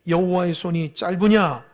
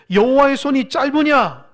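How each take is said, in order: First: Said in the usual way. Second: Loud, raised challenge for others to repeat; emphatic repeat. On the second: Shown as a demonstration. Preacher has congregation repeat God's question, loud and emphatic. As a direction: belt out the scripture question forcefully. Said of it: "한번 따라해 보세요".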